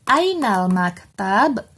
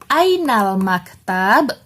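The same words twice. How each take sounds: First: The two words are run together. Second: The same.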